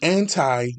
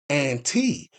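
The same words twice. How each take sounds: First: The word ends with an 'eye' vowel sound. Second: The word ends with an 'ee' vowel sound. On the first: The word is used as a preposition. "it is pronounced with the long I sound" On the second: The word is used as a prefix. "it is pronounced anti with a long E"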